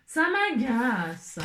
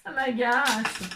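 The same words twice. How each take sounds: First: "Ça m'agace" stretched very slow, each syllable dragged; drawn-out exasperation. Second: Said in the usual way. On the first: Shown as a demonstration. Crafter to viewers, dragging "Ça m'agace" out very slowly. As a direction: drag out "Ça m'agace" as if worn out.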